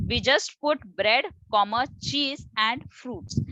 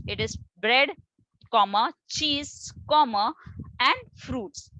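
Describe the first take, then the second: First: Bread, comma, cheese and fruits, no pause before and. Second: Bread, comma, cheese, comma, and fruits with a pause before and. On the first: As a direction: read the list with no pause before and. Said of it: "we in Indian language, we don't use it". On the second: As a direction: put a clear pause before and. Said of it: "in American English". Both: Shown as a demonstration.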